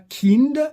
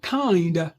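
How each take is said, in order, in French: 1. Le i est une voyelle brève. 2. Le i est une diphtongue, comme le nom de la lettre. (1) "on ne dira pas kind" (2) "On prononce cependant kind"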